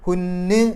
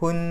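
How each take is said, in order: First: The final n is doubled and held. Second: The final n is short and single. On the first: The speaker calls it wrong. "ശബ്ദോടുകൂടിയല്ല പറയുക" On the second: The speaker calls it right. "ഹുൻ എന്നേ പറയുള്ളൂ"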